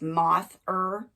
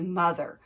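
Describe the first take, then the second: First: It is sounded out as moth plus er. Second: It is said as the familiar word mother. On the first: A reader is decoding the letters literally. The speaker calls it wrong. "pronouncing it as moth-er" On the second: A reader has recognized a known spoken word. The speaker calls it right. "flex it variably into mother"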